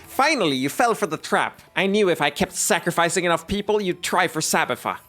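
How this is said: It is said in the put-on character voice.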